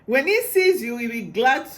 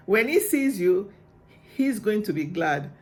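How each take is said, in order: First: Can barely contain the joy; gushing with real excitement; too excited. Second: Said in the usual way. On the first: Real, not acted. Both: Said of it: "I'm too excited".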